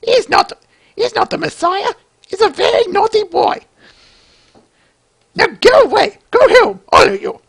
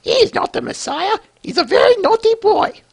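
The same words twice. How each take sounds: First: Much higher, shouted scolding falsetto; high shrill mother impression. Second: Much higher, scolding falsetto mum; high shrill mother impression. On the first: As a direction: shoo the crowd off in a shrill falsetto. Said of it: "bear with me, Flyboy". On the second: Mother scolding the crowd about her son, high falsetto. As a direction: shriek it like an indignant mother. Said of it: "I know that wasn't the greatest".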